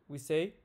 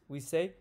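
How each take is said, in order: The two takes are said the same way.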